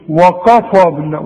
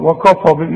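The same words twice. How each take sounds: First: The k sound is heavy and emphatic. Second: The k sound is light, not emphatic. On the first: The speaker calls it wrong. "انما ما تقولش" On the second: The speaker calls it right. "ودائما ترقق"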